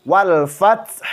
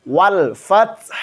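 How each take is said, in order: No difference in how they are said.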